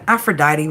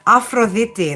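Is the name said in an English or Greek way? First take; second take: English; Greek. First: The name is pronounced the English way. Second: The name is pronounced the Greek way. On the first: "but Aphrodite would do just fine" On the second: "That's how you say it in Greek"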